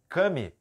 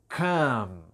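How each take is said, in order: First: An extra vowel sound is added after the m. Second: The word ends cleanly on the m sound. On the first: The speaker calls it wrong. "você aprendeu errado" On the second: The speaker calls it right. "A pronúncia correta é come"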